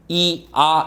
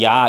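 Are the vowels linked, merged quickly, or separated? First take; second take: separated; merged. First: The two vowels are said separately with a break. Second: The vowels merge into one quick syllable. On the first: The speaker calls it wrong. "이렇게 발음하는 사람은 없어" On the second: The speaker calls it right. "빨리 하면"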